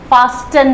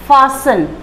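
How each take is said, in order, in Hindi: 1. इस शब्द में 't' की आवाज़ है। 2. इस शब्द में 't' की आवाज़ नहीं है। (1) "फास्टन नहीं" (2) "टी जो है वो साइलेंट रहेगा"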